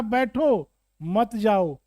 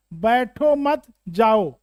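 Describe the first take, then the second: First: बैठो alone, pause, then मत जाओ together; pause after बैठो. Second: बैठो मत run together, pause, then जाओ; pause after मत. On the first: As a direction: break right after बैठो, keep मत जाओ as one group. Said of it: "दूसरा वाक्य है". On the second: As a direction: say बैठो मत slowly as one group, break before जाओ. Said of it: "पहला वाक्य ये है". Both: Shown as a demonstration.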